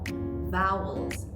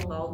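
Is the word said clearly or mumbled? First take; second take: clear; mumbled. First: It is said with an open mouth, sounding clear. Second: It is said fast with a tight, unclear vowel. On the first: The speaker calls it right. "we have to open our jaw" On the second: The speaker calls it wrong. "when we say it fast ... It's not clear"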